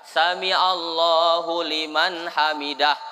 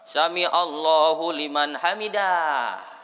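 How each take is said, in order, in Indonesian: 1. Suku kata terakhir dibaca pendek. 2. Suku kata terakhir dibaca panjang. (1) "Itu yang betul" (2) "Jangan sampai ada orang ngimam dahnya dipanjangkannya"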